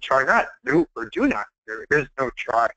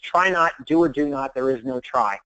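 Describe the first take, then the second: First: It is said in an imitation of Yoda's voice. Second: It is said in the speaker's normal voice.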